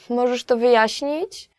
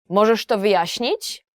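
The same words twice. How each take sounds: First: It sounds like politely asking a favor. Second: It sounds angry and demanding.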